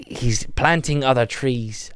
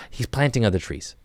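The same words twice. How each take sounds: First: Slow, wobbly put-on Irish; Irish accent losing its way; wandering Irish accent. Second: Said in the usual way. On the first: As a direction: stretch it out in an uncertain mock-Irish brogue. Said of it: "I don't even know where this accent's going". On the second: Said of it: "I'm gonna ditch it".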